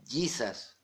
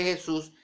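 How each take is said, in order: First: "Jesus" said JEE-sas, the English way; English J and long ee in "Jesus"; English pronunciation of Jesus. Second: Said in the usual way. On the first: Shown as a demonstration. Preacher showing how the spelling is read, "Jesus" as English JEE-sas. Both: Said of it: "pero se pronuncia Jesus".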